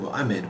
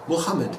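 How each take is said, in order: First: The middle H sound is left silent. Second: The middle H sound is clearly breathed out. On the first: This is the usual French way of saying it. "in French it's generally Mohammed without a spirited H" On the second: This is the proper way of saying it in English. "it's important to have the Muhammad"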